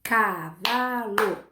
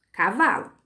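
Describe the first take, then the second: First: "Cavalo" very slowly as ca, va, lo; three drawn-out beats in "Cavalo"; syllable by syllable. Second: Said in the usual way. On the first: Shown as a demonstration. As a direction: stretch and split "Cavalo" for counting. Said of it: "Quantas sílabas tem a palavra". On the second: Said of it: "a primeira eu separei só as letras".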